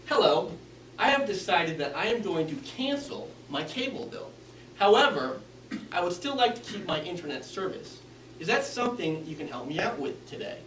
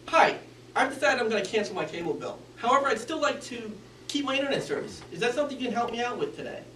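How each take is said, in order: First: Every word enunciated, taking time; confident, well-formed delivery; clear and deliberate. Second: Fast, mumbled, rushed through; hurried mumbling request. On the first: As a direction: articulate each word carefully. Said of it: "enunciated each word". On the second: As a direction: speed through it without care. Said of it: "he mumbled and he sped through". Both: Shown as a demonstration.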